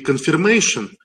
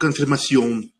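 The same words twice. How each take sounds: First: The word is pronounced the English way. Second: The word is pronounced the French way. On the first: "не confirmation" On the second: "по-французски будет confirmation"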